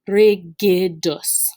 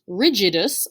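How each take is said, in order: First: The middle g is hard, like in go. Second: The middle g is soft, like j. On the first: The speaker calls it right. "It is in fact pronounced rigidus" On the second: The speaker calls it wrong. "This word is not pronounced rigidus"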